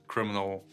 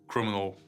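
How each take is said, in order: Both takes have the same delivery.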